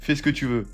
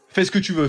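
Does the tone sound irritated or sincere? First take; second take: sincere; irritated. First: It is said in a sincere, relaxed tone. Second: It is said in an irritated, clipped tone. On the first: The permission is genuine. "là tu peux y aller" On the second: The permission is a trap; stay home. "C'est un piège"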